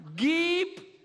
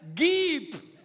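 First: The vowel is a short i sound. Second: The same.

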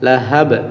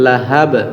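Both takes have the same delivery.

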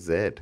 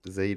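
First: The letter is said as zed. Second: The letter is said as zee.

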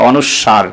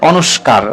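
First: The middle cluster is pronounced with a 'w'. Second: The middle cluster is pronounced with a 'k'. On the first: The speaker calls it right. "আসলে অনুস্কার নয়, এটা হচ্ছে অনুস্বর বা অনুস্বার" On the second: The speaker calls it wrong. "এটার নাম অনেকে বলে অনুস্কার"

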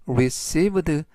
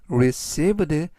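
Both takes have the same delivery.

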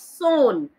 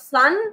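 First: The vowel sounds like the one in 'cone'. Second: The vowel sounds like the one in 'fun'. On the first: The speaker calls it right. "it's Son" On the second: The speaker calls it wrong. "It's not Sun"

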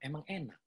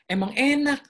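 First: It is said in a flat, even tone. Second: It is said with lively, excited enthusiasm. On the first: It is a plain statement, nothing more. "Yang pertama tuh flat aja gitu" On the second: The speaker is enthusiastic about it. "itu ada excited dia... Ada antusias"

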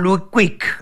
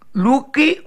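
First: The name ends with an 'ik' sound. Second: The name ends with an 'e' vowel. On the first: The speaker calls it right. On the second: The speaker calls it wrong.

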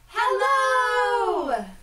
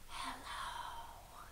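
First: It is said very loudly. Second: It is said very quietly.

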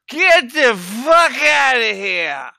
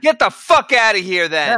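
First: It is said with a drunken slur. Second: It is said clearly, without slurring.

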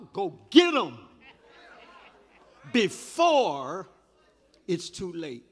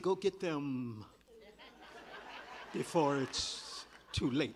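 First: The word 'them' is reduced to 'em'. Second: The word 'them' is pronounced in full. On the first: It sounds informal. The speaker calls it right. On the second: It sounds formal. The speaker calls it wrong. "I know I could say"

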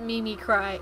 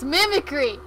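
First: It is said as Mimi plus cry. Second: It is said as the single word mimicry. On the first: The speaker calls it wrong. "They always call it Mimi Cry" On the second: The speaker calls it right. "It's Mimicry!"

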